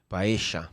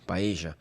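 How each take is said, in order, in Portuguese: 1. O duplo L soa como um som de 'sh'. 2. O duplo L soa como um som de 'sh'.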